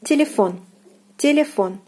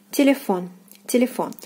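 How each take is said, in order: First: Телефон with a full O on the last syllable; Russian stressed O. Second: Телефон repeated, last syllable stressed with a full O; Russian stressed O. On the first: Teacher models Телефон for students, clear final O. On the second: Teacher repeats Телефон after translating it. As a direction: say Телефон again, final O stressed. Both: Shown as a demonstration. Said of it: "O is stressed here".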